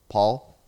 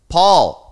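First: The name is said quietly. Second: The name is said loudly.

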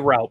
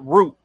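First: The vowel sounds like the one in 'out'. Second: The vowel sounds like the one in 'boot'. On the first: "I say route" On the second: "everybody around here calls it root"

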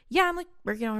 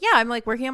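First: It sounds offhand and downplayed. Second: It sounds eager and upbeat. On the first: The work is treated as no big deal. The speaker calls it wrong. "it's like you're already underplaying yourself" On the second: The work is something to be proud of. The speaker calls it right. "if you talk about whatever you're doing with enthusiasm"

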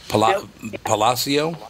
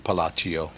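First: The name is pronounced the Spanish way. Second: The name is pronounced the Italian way. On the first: The speaker calls it right. "that's how you pronounce it?" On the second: The speaker calls it wrong. "So it would not be Palacio"

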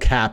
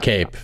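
First: The surname has a short open vowel. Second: The surname has a long 'ay' vowel. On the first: The speaker calls it right. "it is Manel Cap officially" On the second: The speaker calls it wrong. "It's not Cape. I've been saying it wrong for years"

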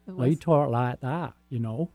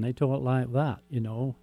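First: It is said in a West Country accent. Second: It is said in a Northern English accent. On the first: "if you go to the West Country" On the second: "You go up north and"

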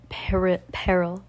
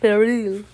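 First: The word is said in a plain English accent. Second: The word is said in a French-style accent.

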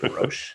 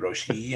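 First: The name ends on a consonant sound. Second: The name ends with an added vowel sound. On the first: The speaker calls it wrong. "I was calling it Roche" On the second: The speaker calls it right. "It's supposed to be Roche-E"

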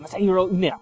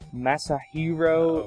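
First: The name is said quickly in one go. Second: The name is said slowly and hesitantly.

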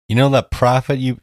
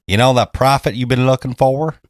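First: It is said in the speaker's plain accent. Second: It is said with a Southern twang.

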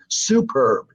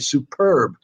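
First: The stress is on the first syllable. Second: The stress is on the second syllable. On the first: The speaker calls it wrong. "you don't say superb" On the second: The speaker calls it right. "you say superb"

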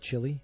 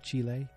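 First: The country name sounds like English 'chilly'. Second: The country name sounds like Spanish 'chee-leh'. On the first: This is the way the speaker used to say it. The speaker calls it wrong. "I used to say Chile" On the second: This is the way the speaker hears it said now. The speaker calls it right. "that's the much cooler way to say it. And that's, I think, also the correct way to say it"

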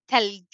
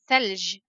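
First: It is said in Egyptian Arabic, starting with t. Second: It is said in Fusha Arabic, starting with th.

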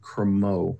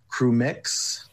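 First: The word ends with an 'oh' sound. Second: The word ends with a 'ks' sound. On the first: The speaker calls it right. "I think EUX is pronounced O" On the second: The speaker calls it wrong. "I feel believe I'm saying that right"

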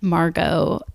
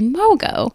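First: An R sound follows the first vowel. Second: No R sound follows the first vowel.

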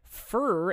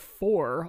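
First: The word has a reduced vowel, sounding like fur. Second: The word has a full vowel, sounding like for. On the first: "I say fur" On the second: "instead of for"

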